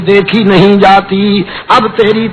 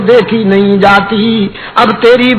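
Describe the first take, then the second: No difference in how they are said.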